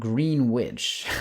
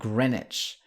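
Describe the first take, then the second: First: The second part sounds like the word 'witch'. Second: The second part has no 'w' sound. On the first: The speaker calls it wrong. "It's not Greenwich. We're not talking about the uh, Wizard of Oz Wicked Witch here" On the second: The speaker calls it right. "We're talking about Greenwich"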